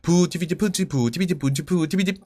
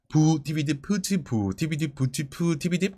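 First: The syllables are read at the quickest pace. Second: The syllables are read at a slow pace. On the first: "그럼 더 빠르게" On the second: "다시 한 번 더 천천히 빠르게 읽어봅니다"

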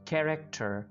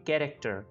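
First: The first consonant is a breathy kh sound. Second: The first consonant is a plain k sound. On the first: The speaker calls it right. "लेकिन अब कैरेक्टर" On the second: The speaker calls it wrong. "Normally आप इसको बोलेंगे कैरेक्टर"

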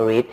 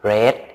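First: The vowel is long, like 'reed'. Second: The vowel is short, like 'red'. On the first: This is the present-tense form. The speaker calls it wrong. "เราไม่ได้ออกเสียงว่า" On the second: This is the past-tense form. The speaker calls it right. "เราออกเสียงเป็น"

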